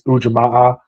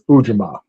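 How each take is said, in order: First: The final syllable carries extra stress. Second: The final syllable is not stressed. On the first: "some that put another stressor on the A" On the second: "It's always been pronounced in my circles as"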